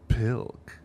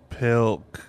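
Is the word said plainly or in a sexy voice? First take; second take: sexy; plain. First: It is said in a sexy voice. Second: It is said in a plain voice.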